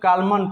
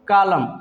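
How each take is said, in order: First: The word ends with an added N sound. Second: The word ends on the M sound. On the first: The speaker calls it wrong. "कुछ लोग कालमन पढ़ते हैं, जो कि गलत sound है" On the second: The speaker calls it right. "क्या पढ़ेंगे इसको? कालम"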